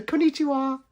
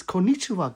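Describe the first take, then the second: First: High, sing-song put-on Konnichiwa; playful high "Konnichiwa" echo; mock cutesy greeting. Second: Said in the usual way.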